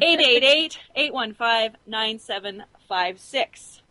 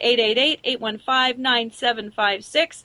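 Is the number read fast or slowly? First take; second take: slowly; fast. First: The number is read more slowly. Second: The number is read quickly.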